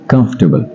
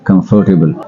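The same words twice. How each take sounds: First: It is said with a British English pronunciation. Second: It is said with a South Asian English pronunciation. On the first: This is how native English speakers pronounce it. The speaker calls it right. "अंग्रेज़ों ने उसको कंफर्टेबल कहा" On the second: This is the local habit of pronouncing it. The speaker calls it wrong. "मैं भी कंफर्टेबल कहता था"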